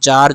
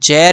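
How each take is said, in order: First: The vowel sounds like 'ah'. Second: The vowel sounds like 'air'. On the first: "जैर या फिर जार, जो भी बोलो आप" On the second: "जैर या फिर जार, जो भी बोलो आप"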